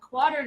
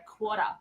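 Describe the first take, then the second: First: The final R is pronounced, American style. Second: The final R is dropped, Australian style. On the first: "I have to teach the kids that it's a half note and a quarter" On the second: "we say in Australia quarter"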